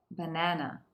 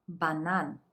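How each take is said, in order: First: Said in the usual way. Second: Banan said the Russian way, stress on the last syllable. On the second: Shown as a demonstration. Teacher sounding out banan for learners.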